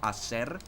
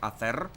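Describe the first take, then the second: First: The middle consonant is an s sound. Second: The middle consonant is a th sound. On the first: This is how other dialects say it. "instead of hacer" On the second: This is how it is said in Spain. "they have the th sound. For example, they would say hacer"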